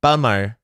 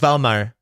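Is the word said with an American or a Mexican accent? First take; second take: Mexican; Mexican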